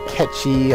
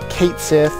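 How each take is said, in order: First: Said as one word, like 'ketchy', Scottish-style. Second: Said as two words, rhyming with 'Kate'.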